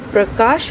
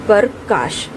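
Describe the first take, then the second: First: The p joins the r directly with no vowel. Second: A full vowel is sounded between p and r. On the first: The speaker calls it right. "इसका जो शुद्ध उच्चारण है वह प्रकाश होगा" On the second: The speaker calls it wrong. "ना कि प्रकाश"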